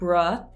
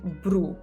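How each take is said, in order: First: The vowel is an unrounded 'uh' sound. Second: The vowel is a rounded 'oo' sound. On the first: The speaker calls it wrong. "In English, I said bruh" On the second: The speaker calls it right. "In Italian, we say bru"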